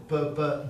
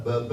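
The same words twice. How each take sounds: First: "pe" as a crisp burst of air with no voicing; unvoiced P. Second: "be" voiced, the burst softened by a little air; cushioned B. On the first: Speaker contrasting P with B, exploded "pe". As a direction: pop "pe" cleanly off the lips. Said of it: "Le P correspond au B". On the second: Speaker contrasting B with P, cushioned "be". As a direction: let "be" bounce off the lips, cushioned. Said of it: "toute petite masse d'air qui vient amortir". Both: Shown as a demonstration.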